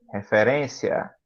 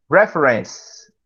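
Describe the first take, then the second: First: Said in the usual way. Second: Slow English Reference, stress on the first syllable; English pronunciation. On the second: Shown as a demonstration. Teacher modeling English Reference slowly.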